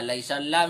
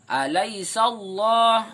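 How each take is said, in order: First: The l in Allah sounds thin and light. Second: The l in Allah sounds thick and heavy. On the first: The speaker calls it wrong. "misalkan ada yang baca kayak gitu tidak boleh" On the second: The speaker calls it right. "ini tebal dan panjang satu alif"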